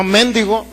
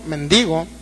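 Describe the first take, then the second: First: "mendigo" mis-stressed as MÉN-di-go; stress on first syllable. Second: "mendigo" corrected to men-DI-go, pitched lower; lower, corrective "mendigo", weight on DI; stress on the I. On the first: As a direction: say "mendigo" with the accent moved onto MEN. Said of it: "no mendigo, mendigo, con acento". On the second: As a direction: say "mendigo" with the accent on the I. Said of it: "con acento en la I". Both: Shown as a demonstration.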